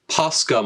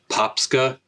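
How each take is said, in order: First: It is said without a p before the s. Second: It is said with a p before the s. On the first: The speaker calls it right. "I think I said that right this time" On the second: The speaker calls it wrong. "I don't know why I thought there was another P in there"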